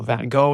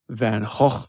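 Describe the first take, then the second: First: The name is said in an American accent. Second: The name is said in a Dutch accent.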